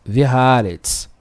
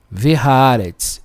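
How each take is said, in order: Both takes have the same delivery.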